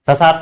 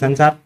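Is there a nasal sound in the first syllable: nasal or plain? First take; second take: plain; nasal. First: The first syllable has no nasal sound. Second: The first syllable has a nasal sound. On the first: The speaker calls it wrong. "ये बिंदी को हटा दो" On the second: The speaker calls it right. "क्या है"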